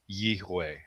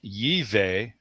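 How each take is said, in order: First: The middle consonant is a W sound. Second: The middle consonant is a V sound. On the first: The speaker calls it right. "it's pronounced with a W" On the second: The speaker calls it wrong. "the V sound may have come from a Germanic European influence"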